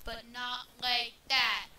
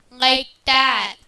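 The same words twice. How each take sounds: First: Said in the usual way. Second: Loud, booming demo into mic; loud mic test. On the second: Shown as a demonstration. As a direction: boom it into the mic.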